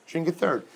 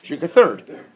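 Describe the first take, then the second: First: Said in the usual way. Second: Louder, punched-out answer; emphatic answer. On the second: Shown as a demonstration. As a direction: call out the remedy loudly. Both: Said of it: "Which is what?".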